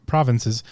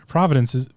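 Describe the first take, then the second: First: Provinces said cleanly as prov-in-ses; corrected pronunciation. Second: Provinces said as prov-uh-dence, garbled middle; stumbled pronunciation. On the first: Host corrects himself on provinces, careful and clean. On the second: Host stumbles on provinces, garbled slip. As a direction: mispronounce provinces as prov-uh-dence before correcting. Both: Shown as a demonstration.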